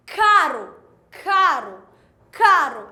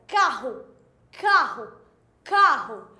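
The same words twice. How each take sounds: First: Caro said three times, loud, with a light tapped R; single R demo. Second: Carro said three times with the double R as a strong guttural h; carro, guttural h in the middle, repeated; RR demo. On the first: Teacher contrasting caro with carro, louder tapped R. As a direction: caro with a quick tongue tap on the R. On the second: Teacher contrasting carro with caro, throaty RR. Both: Shown as a demonstration. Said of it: "Olha a diferença".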